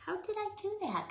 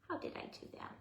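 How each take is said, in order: First: Surprised. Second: Whispering. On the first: Surprised at own mistake. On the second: Repeat whispered to self. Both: Real, not acted.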